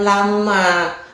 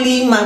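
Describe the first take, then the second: First: The first vowel is pronounced a. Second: The first vowel is pronounced i. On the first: It means when. The speaker calls it wrong. "Bukan lama, ketika maknanya" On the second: It means for what. The speaker calls it right. "Itu lima, bukan lama"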